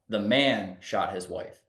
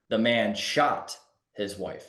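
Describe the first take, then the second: First: The word man carries the strongest stress. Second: The word shot carries the strongest stress. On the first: It was the man who did it. "the first one is the man did it" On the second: What he did was shoot her. "we're saying the man did it, but he, he shot his wife"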